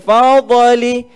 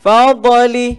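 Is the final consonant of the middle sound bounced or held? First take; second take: bounced; bounced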